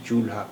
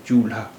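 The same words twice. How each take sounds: First: चूल्हा as chool, then haa; separate l and h. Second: चूल्हा as choo-lhaa, one joined sound; blended lha. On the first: Teacher explaining separate sounds, चूल्हा split as chool-haa. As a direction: keep ल and हा apart in चूल्हा. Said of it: "ला और हा की अलग-अलग आवाज़". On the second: Teacher showing the merged sound, चूल्हा with blended lha. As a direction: run ल straight into हा in चूल्हा. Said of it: "एक मिली हुई आवाज़". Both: Shown as a demonstration.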